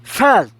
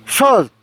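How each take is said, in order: First: Said in the usual way. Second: "salt" said as "sol", English vowel; English pronunciation of salt. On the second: Shown as a demonstration. Teacher showing Spanish learners the English sound, slowly.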